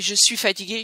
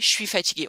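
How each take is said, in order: First: Je suis is said in full. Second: Je suis is squeezed into 'chuis'.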